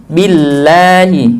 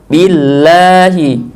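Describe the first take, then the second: No difference in how they are said.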